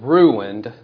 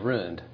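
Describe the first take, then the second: First: It is said in a standard, formal accent. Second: It is said in an Oklahoma accent. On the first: "which may be more like King's English, but the proper way to say it" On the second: "In Oklahoma, where I came from, ... they just say"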